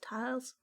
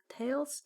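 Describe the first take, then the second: First: The vowel sounds like the one in 'tiles'. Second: The vowel sounds like the one in 'tails'. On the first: "I don't know" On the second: "Am I pronouncing that right?"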